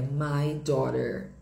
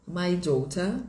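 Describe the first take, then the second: First: Slow American "my daughter", tapped T; sotaque americano. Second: British "My daughter", crisp T, no R; sotaque britânico. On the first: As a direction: say "daughter" slowly as "daw-der", American. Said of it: "no inglês americano fica". (sotaque americano, devagar, com R final) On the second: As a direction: say "daughter" as "daw-tah", British. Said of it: "muda no inglês britânico". (sotaque britânico, T claro, sem R) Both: Shown as a demonstration.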